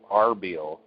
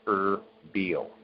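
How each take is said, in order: First: The name begins with an 'ar' sound. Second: The name begins with an 'er' sound. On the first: "it's spelled Arbil" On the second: "it's pronounced Erbil"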